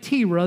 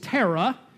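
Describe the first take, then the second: First: The first vowel sounds like 'ear'. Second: The first vowel sounds like 'car'. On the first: The speaker calls it wrong. "I've heard some Bible teachers pronounce it Tira" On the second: The speaker calls it right. "that name is Tara"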